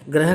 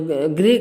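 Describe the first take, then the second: First: The first syllable has a plain 'ra' sound. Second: The first syllable has an 'ri' sound. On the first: The speaker calls it wrong. "ग्रह कार्य नहीं होता है। अगर हम ग्रह बोलेंगे तो पूरा र माना जाएगा" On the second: The speaker calls it right. "गृह कार्य होता है"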